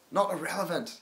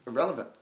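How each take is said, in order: First: "Not" punched and set apart before "irrelevant", higher; stress on not. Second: Said in the usual way. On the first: Shown as a demonstration. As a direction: correct yourself by leaning hard on "Not".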